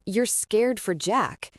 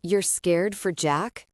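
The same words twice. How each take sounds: First: Slow, stressing every word; more emphasis. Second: Incredulous. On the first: Jace repeats her words back, slow and emphatic. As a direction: hammer it home in disbelief. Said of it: "with more emphasis". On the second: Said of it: "stared incredulously at her". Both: A narrator's reading.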